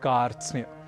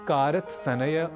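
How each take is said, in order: First: All five consonants are joined without vowels. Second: Extra vowels break up the consonant cluster. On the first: The speaker calls it right. "हमें कहना है" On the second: The speaker calls it wrong. "आदि न कहकर"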